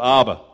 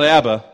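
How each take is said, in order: First: It is said unlike the pop band's name. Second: It is said like the pop band's name. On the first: It is the word meaning Daddy, Father. The speaker calls it right. "but Abba ... which simply translates to the word Daddy" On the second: It refers to the 1970s pop group. The speaker calls it wrong. "Not Abba, ... Dancing Queen"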